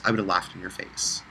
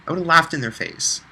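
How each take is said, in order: First: Said in the usual way. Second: Laughed hit higher and harder than the rest of the line; laughed stands out, set up high and pushed; stress on laughed. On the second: Real, not acted. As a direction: repeat it, punching laughed with a higher pitch.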